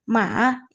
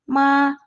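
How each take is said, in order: First: It is said with the third tone. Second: It is said with the second tone. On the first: It means horse. "Nada yang ketiga" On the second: It means pins and needles. "Nada yang kedua"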